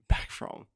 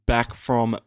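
First: Whispered. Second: Said in the usual way. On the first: Shown as a demonstration. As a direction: whisper "back from" with no voice.

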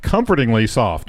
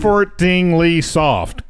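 First: Said in the usual way. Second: Slow careful. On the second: Shown as a demonstration. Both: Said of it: "I can't say it".

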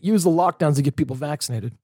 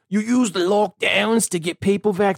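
First: Said in the usual way. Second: Put-on higher, slow, botched Fauci accent; terrible put-on accent. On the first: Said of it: "We're gonna roll with it". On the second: Host quoting Fauci on lockdowns, in a terrible accent. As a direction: drag it out in a hammed-up bad accent. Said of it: "That's the worst accent I've ever seen".

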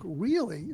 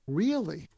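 First: Really? rising higher in curious surprise; an intrigued rising Really?; inviting interested really. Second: Said in the usual way. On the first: Shown as a demonstration. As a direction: ask Really? with a lift, inviting more. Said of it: "but inviting them to say more". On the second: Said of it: "Not really".

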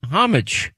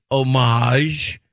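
First: Homage said HOM-ij, H sounded, stress up front; English-style homage. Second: Homage said oh-MAHZH, silent H, stress on the end; French-style homage. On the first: Host offering the second option, homage as HOM-ij. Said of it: "in which the pronunciations". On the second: Host offering the first option, homage as oh-MAHZH. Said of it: "programs that tell you how to". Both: Shown as a demonstration.

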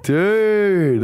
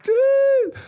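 First: High, drawn-out greeting to a mate; long, raised mock-astonished call; acted amazed greeting. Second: Very high falsetto squeal back; mock squeal of recognition; imitated amazed greeting. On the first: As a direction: stretch it out in delighted recognition. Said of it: "And I'm like". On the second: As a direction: echo it in a tiny, drawn-out falsetto. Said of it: "And he's like".

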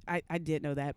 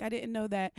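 First: Said in the usual way. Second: Higher-pitched feigned ignorance; mock innocent. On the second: Woman pretending ignorance to officer, mock innocent. Resumes innocent act for cop.

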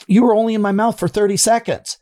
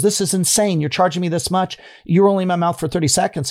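First: High, pressed retold complaint; imitating a patient's indignant protest, pitched up. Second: Higher, quicker retold protest; imitating an irritated patient, pitched up and quick; mock indignant complaint. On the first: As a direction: protest the price to the dentist. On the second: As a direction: throw the bill down and complain. Patient confronts dentist over bill.

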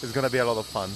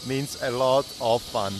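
First: Said in the usual way. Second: "a lot of fun" spaced out, word by word; deliberate stress on "a lot of fun"; emphatic restatement. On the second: Real, not acted.

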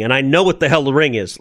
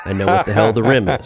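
First: Said in the usual way. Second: Fast, laughing self-correction. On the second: Real, not acted. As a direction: laugh at your own slip. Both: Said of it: "I just did that there".

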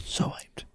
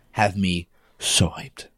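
First: Whisper-yell it, intense and hushed; angry whisper. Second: Said in the usual way. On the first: Shown as a demonstration. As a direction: hiss it out, fiercely excited. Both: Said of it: "I had to do, like, the, the angry whisper".

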